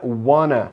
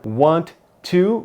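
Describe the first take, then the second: First: The words are blended into one reduced word. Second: Both words are said fully and separately.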